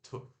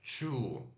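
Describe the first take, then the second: First: The word begins with a plain 't' sound. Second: The word begins with a 'ch' sound. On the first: The speaker calls it right. "Tu faz tu" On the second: The speaker calls it wrong. "Não é chu"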